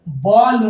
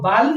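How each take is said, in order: First: The vowel is a rounded 'aw'. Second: The vowel is an open, unrounded 'ah'. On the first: The speaker calls it right. "बॉल होगा" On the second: The speaker calls it wrong. "बाल नहीं होगा"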